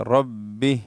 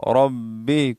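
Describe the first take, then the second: The two takes are said the same way.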